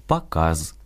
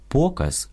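First: «показ» as Russian pa-KAZ, stressed on the final syllable. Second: «показ» stressed on the first syllable, пОказ; Ukrainian stress. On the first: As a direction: reduce the first vowel and stress KAZ in «показ». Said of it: "російське". («показ» — російською, наголос на «каз») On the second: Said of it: "українське". («показ» — наголос на «по») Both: Shown as a demonstration.

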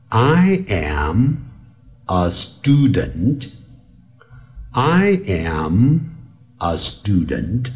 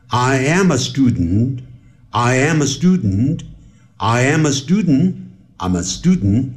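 First: Slow "I am, a student" with a pause after am; each part of "I am a student" said separately, unhurried; slow speed. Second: "I am a student" run together, quicker each time; getting faster. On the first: Teacher starting from slow speed, careful "I am a student". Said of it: "你看我现在由慢速". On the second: Teacher showing fast native linking, accelerating "I am a student". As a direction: link it as I-amma-studn, building to quick natural speed. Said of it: "我要快了". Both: Shown as a demonstration.

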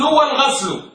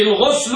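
First: "والغسل" with a vowel: wal-ghaslu; فتح الغين. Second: "الغسل" with u vowel: al-ghuslu; ضم الغين. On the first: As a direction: open the vowel after غ in "والغسل" to a. ("والغسل" بفتحة على الغين) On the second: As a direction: round the vowel after غ in "الغسل" to u. ("الغسل" بضمة على الغين) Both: Shown as a demonstration. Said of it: "يراد به الضم والفتح".

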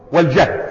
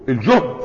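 First: والجهد said "wal-jahd"; fatha on the jim. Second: الجهد said "el-juhd", lower pitch; damma on the jim. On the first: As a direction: say والجهد with an open "a" after j. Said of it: "وبالفتح المشقة". (والجهد بفتح الجيم) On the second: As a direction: say الجهد with a rounded "u" after j. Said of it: "وهو بالضم الجهد". (الجهد بضم الجيم) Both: Shown as a demonstration.

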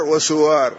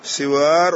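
First: وسوار as "wa-suwaar", short U after S; damma on sin. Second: سوار as "siwaar", short I after S; kasra on sin. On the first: Teacher demonstrating both vowellings, وسوار with damma. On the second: Teacher demonstrating both vowellings, سوار with kasra. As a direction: say سوار slowly with an i in the first syllable. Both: Shown as a demonstration. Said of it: "بكسر السين وضمها".

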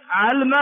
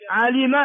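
First: علم with sukun on the lam; shortened verb. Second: علم with kasra on the lam; original verb form. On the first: Teacher drilling three forms, second "'alma". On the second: Teacher drilling three forms, first "'alima". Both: Shown as a demonstration. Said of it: "علم في ثلاث لغات".

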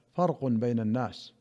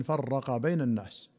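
First: فرق as "farqun", single r with no vowel after it; noun reading. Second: فرق as "farraqa", doubled r; variant verb reading. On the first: Reader giving the main narration, فرق voiced farqun. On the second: Reader giving the other narration, فرق voiced farraqa. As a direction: hold the r in فرق and end on a: farraqa. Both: Shown as a demonstration. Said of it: "وفي رواية".

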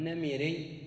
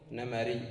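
First: نمري with short i after the m: "namirī"; kasra on the middle vowel. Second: نمري with short a after the m: "namarī"; fatha on the middle vowel. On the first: Teacher showing students the form to replace, نمري said "namirī". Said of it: "بدل أن تقول". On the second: Teacher giving students the correct nisba, نمري said "namarī". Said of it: "افتح العين". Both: Shown as a demonstration.

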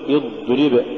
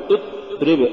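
First: اضرب with the heavy d drawn through; voiced, unbroken dad in اضرب; soft flowing dad. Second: اضرب with the dad cut dead; blocked d and a gap in اضرب; choked-off dad. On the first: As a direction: let the dad sound continue in اضرب. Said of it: "قل". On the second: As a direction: stop hard before the r in اضرب. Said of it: "ولا تقل". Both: Shown as a demonstration.

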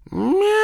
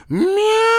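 First: High, long cat yowl; cat's long wail in a silent graveyard; drawn-out meow. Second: Very high, loud cat yowl; piercingly high drawn-out cat cry; louder meow. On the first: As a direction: stretch out an eerie meow. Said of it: "тягуче раздалось над тихим кладбищем". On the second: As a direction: let out a longer, louder meow. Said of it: "Ещё громче прозвучало под звёздным небом". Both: A narrator's reading.

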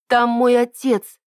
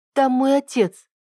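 First: Slow, louder and higher, stressing «там»; insistent. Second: Urgent. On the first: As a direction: repeat it pleadingly, «там» stressed. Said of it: "повторила я". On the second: Urgent cry about father. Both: A narrator's reading.

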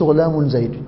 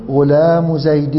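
First: غلام زيد with an n added, "ghulāmun"; incorrect tanween. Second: غلام زيد slowly, "ghulāmu zaydin", no n after غلام; tanween dropped. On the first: Teacher showing what not to say, incorrect tanween on first word. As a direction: wrongly sound "-un" at the end of غلام before زيد. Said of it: "ما تقولش". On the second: Teacher modelling the correct possessive phrase, tanween dropped from first word. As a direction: stretch غلام and join it to زيد with a plain "-u". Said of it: "فتقول". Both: Shown as a demonstration.

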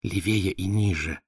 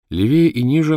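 First: Slow hint in her voice; prompting. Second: Said in the usual way. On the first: A narrator's reading. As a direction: guide him gently, slow. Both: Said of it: "подсказала Валя".

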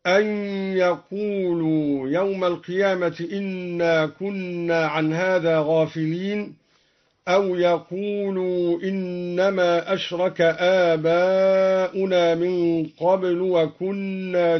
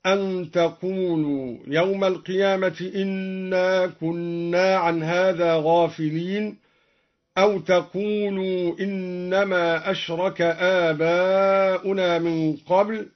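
First: يقولوا with y, third person; يقولوا بالياء. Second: تقولوا with t, addressing; تقولوا بالتاء. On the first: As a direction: say يقولوا beginning with y. (يقولوا بياء الغيبة) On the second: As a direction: say تقولوا beginning with t. (تقولوا بتاء الخطاب) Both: Shown as a demonstration. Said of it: "قرأ الدوري بالياء على الغيبة".

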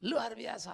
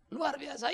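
First: Said in the usual way. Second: Higher, brighter repeat of the answer; louder crowd reply. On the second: Retold or imitated. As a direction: answer the leader with more push. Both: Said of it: "kurang kencang".

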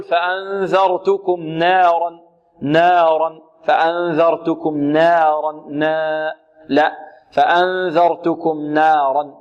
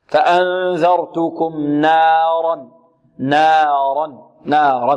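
First: نارا with the alif bent toward a thin, leaning vowel; slow faulty demo. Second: نارا with a light نون and a pure open alif, no leaning; correct slow recitation. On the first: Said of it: "البعض يريد أن يخلص النون من الراء". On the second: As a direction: say نارا slowly with a clean, unleaned alif. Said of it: "بل تأتي بالفتحة ... خالصة". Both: Shown as a demonstration.

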